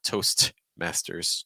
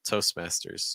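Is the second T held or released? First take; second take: released; held. First: The second t is fully released. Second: The second t is held, not released. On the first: The speaker calls it wrong. "So it's not Toastmasters" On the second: The speaker calls it right. "The second tee in Toastmasters is held"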